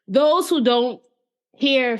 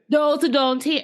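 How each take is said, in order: First: It is said in her ordinary accent. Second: It is said in an attempted Jamaican accent.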